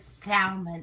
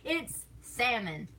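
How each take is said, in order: First: "salmon" said slowly, sounding the L as sal-mon; mama's way, "salmon" with a clear L. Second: "salmon" said slowly as sam-un, the L silent; "It's salmon" with no L, slow and firm; salmon without L. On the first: Mocking mama's pronunciation, salmon with L. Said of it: "she says salmon". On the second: Correcting mama's salmon, silent L, slow. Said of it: "We don't pronounce the L in that word". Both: Shown as a demonstration.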